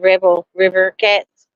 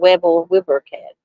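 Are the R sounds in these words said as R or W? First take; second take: R; W. First: The R sounds are pronounced as clear R sounds. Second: The R sounds are pronounced like W sounds. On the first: "especially when I'm saying rebel river cats" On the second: "mispronounce the R ... it comes out Webble Wibber cats"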